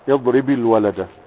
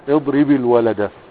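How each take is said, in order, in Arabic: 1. الكلمة الأولى تنتهي بكسرة i، فتتصل بسلاسة. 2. الكلمة الأولى تنتهي بكسرة i، فتتصل بسلاسة.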